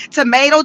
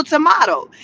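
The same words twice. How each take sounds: First: "tomato" with an AY middle vowel; American "tomato". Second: "tomato" with an AH middle vowel; British-style "tomato". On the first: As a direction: say "tomato" as tuh-MAY-toh. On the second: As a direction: say "tomato" as tuh-MAH-toh. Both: Shown as a demonstration. Tomato-tomato idiom, contrasting pronunciations.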